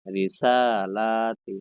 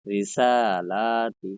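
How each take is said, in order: First: "রিসালাতি" very slow, the a of "সা" held long; second slow recitation of "রিসালাতি" with the long vowels held; stretched madd recitation. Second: "রিসালাতি" said very slowly with the long a held; slow recitation demo of "রিসালাতি" with the long vowels held; stretched madd recitation. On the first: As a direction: pull "রিসালাতি" out syllable by syllable. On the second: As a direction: draw out "রিসালাতি", holding each long vowel one alif. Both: Shown as a demonstration. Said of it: "এইভাবে করে পড়বেন".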